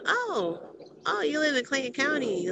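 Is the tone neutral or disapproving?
disapproving. It is said with a disapproving, negative tone.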